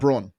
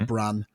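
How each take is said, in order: First: The second syllable sounds like 'bron'. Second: The second syllable sounds like 'brun'. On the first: "LeBron's how I'm choosing to pronounce it" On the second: "It might be"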